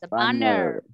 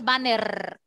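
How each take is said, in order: First: The R is a soft sound from the throat. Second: The R is a strong trilled Spanish R. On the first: The speaker calls it right. "La R de la garganta" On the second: The speaker calls it wrong. "No es banner"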